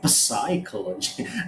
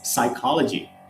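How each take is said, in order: First: The P at the start is pronounced. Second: The P at the start is silent. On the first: The speaker calls it wrong. "We don't say psychology" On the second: The speaker calls it right. "The P is completely silent"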